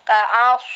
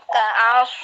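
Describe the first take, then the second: Both takes have the same delivery.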